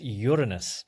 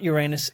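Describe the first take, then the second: First: The name begins like the word 'urine'. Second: The name sounds like it ends in 'anus'. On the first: "that sounds a bit like urine now" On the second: "it's not Uranus"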